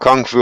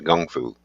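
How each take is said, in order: First: It starts with a hard k sound. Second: It starts with a softer g sound. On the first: This is how people say it locally. The speaker calls it wrong. "we call we call it kung fu over here" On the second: This is the original Chinese pronunciation. The speaker calls it right. "the correct pronunciation for Chinese boxing is Chinese gung fu"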